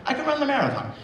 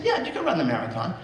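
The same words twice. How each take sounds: First: Put-on much higher, delighted child's echo; thrilled little girl repeating the news; excited girl. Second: Said in the usual way. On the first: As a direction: she can't believe her luck, say it high.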